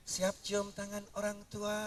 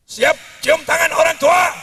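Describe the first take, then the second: First: Softer, timid mock delivery; meek version. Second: Loud, higher rally shout; Habib Rizik shout. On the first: Shown as a demonstration. Preacher shows how a Betawi would NOT say it, meek and soft. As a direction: say it limply, no Betawi fire. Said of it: "orang Betawi ngomongnya". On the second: Retold or imitated. Preacher mimics Habib Rizik rallying the youth, loud shout. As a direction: fire the question at the crowd. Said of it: "Saya tak tiru-tiru Habib Rizik".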